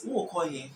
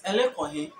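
First: "Who call him" as Twi "wo ko he"; Twi accent. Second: Fanti "Ele call him", falling at the end; Fanti accent. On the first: Teacher translating "where are you going", Twi accent. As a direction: say it the Twi way, falling. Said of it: "Twi is". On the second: Teacher contrasting Fanti with Twi, Fanti accent. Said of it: "But Fanti is". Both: Shown as a demonstration.

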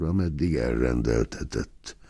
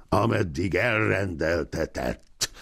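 First: Said in the usual way. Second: Flared up. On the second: A narrator's reading. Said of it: "fortyant fel a nagyságos úr".

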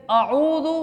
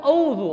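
First: आऊज़ु with a clear ain; correct pronunciation. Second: औज़ु straight from alif to waw; wrong pronunciation. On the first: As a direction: say आऊज़ु as a-'oo-zu. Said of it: "आऊज़ु और चीज़ है". (आऊज़ु, आइन और लंबा ऊ) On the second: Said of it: "औज़ु और चीज़ है". (औज़ु, सीधी वाव, आइन नहीं) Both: Shown as a demonstration.

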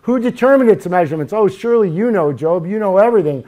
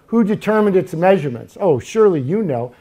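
First: Loud, higher-pitched mocking challenge; sarcastic. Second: A touch of sarcasm in reading God's challenge; mild sarcasm. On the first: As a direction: fire the questions off with loud sarcasm. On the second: Acted. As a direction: read the challenge with mild irony. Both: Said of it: "I hear the sarcasm".

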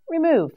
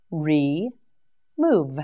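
First: Said in the usual way. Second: Re-move split into two slow separate beats; syllable by syllable. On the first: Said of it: "whole word after syllables". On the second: Shown as a demonstration. Teacher sounding out Re-move for learners, syllable by syllable. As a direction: break Re-move apart so learners hear each part. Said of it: "syllable by syllable demo".

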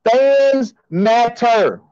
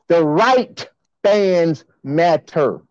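First: FANS and MATTER drawn out slowly; stress on FANS. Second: RIGHT drawn out, then a pause; stress on RIGHT. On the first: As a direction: stretch out fans, then matter, as a slogan. Contrasts fans with the right fans. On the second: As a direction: lean slowly and hard on the word right. Corrects slogan to right fans. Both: Real, not acted.

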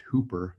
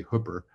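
First: HOOPER with a long oo, as in hoop; expected pronunciation. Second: HOOPER with a short oo, as locals say it; local pronunciation. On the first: Speaker showing how outsiders read his hometown, expected pronunciation. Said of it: "expect this to be pronounced Hooper". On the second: Native teaching listeners his town's name, local pronunciation. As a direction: say HOOPER slowly, with the vowel of hook. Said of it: "we say Hooper". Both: Shown as a demonstration.

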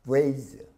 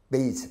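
First: Vase with a buzzing English V; labiodental V. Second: 베이스 as base, both lips; bilabial B. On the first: Teacher contrasting vase and base, vase with a V. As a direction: start vase with teeth on lip, voiced. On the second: Teacher contrasting vase and base, 베이스 with a B. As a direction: say 베이스 with lips closed at the start. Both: Shown as a demonstration. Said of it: "다른 발음이죠".

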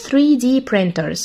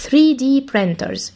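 First: Said in the usual way. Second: Three D printers drawn out word by word; very slow. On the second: Shown as a demonstration. Teacher repeating the term slowly for the class. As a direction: say three D printers at a crawl for pupils to copy.

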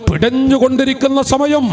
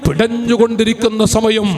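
First: പിടഞ്ഞുകൊണ്ടിരിക്കുന്ന സമയം said higher, building intensity; higher emphatic repeat of പിടഞ്ഞുകൊണ്ടിരിക്കുന്ന സമയം; rising emphasis. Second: Said in the usual way. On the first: Shown as a demonstration. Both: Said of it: "repeated phrase".

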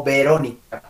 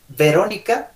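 First: "Verónica" con B de dos labios; B bilabial. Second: "Verónica" con V de dientes y labio; V labiodental. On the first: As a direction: junta los labios al empezar "Verónica". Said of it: "si fuera con B". ("Verónica" con be labial) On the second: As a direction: marca la V inicial de "Verónica" con los dientes. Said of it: "Con la V". ("Verónica" con uve labiodental) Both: Shown as a demonstration.

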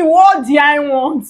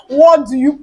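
First: "I" stressed, drawn out slowly. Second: "you" stressed, cut off unfinished. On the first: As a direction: lean hard on "I" in the question. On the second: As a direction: lean on "you", then break off. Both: Retold or imitated. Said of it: "They didn't say".

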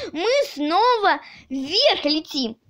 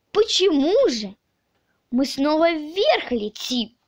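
First: Exclaimed news with pitch lifting on вверх; excited announcement. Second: Mildly puzzled questioning; surprised question. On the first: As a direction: call it out as news, falling at the end. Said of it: "и закричал". (радостно-взволнованное восклицание) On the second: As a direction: ask it in wonder, not as news. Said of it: "удивился Авоська". (удивлённый вопрос) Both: A narrator's reading.

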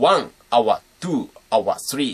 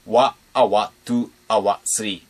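First: Full "ワン" and "ツー", "スリー" said out clearly; wrong pronunciation. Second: Clipped "ワ" instead of "ワン", then "アワー"; right pronunciation. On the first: Teacher shows the uncool way to count the phrase. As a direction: spell out "ワン、アワー、ツー、アワー、スリー" like plain counting. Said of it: "かっこ悪い感じになっちゃう". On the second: Teacher shows the proper way to count the phrase. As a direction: say "ワ、アワー、ツー、アワー、スリー" with "ワ" cut short. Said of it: "こういう風に発音して". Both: Shown as a demonstration.

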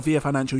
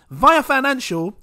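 First: Via said as vee-ah, ee sound first, lower and softer. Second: Via said as vye-ah, first syllable like eye. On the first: Correcting himself for Via Financial, Via said vee-ah. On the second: Thanking Via Financial, Via said vye-ah. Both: Shown as a demonstration. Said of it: "you need American say Via".

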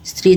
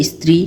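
First: Said in the usual way. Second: "স্ত্রী" said as istri; added initial vowel. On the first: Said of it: "এগুলো হচ্ছে আদি". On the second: Shown as a demonstration. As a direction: put an i before the st of "স্ত্রী". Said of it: "স্বরাগমের উদাহরণ".

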